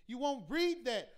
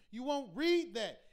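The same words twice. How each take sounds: The two takes are said the same way.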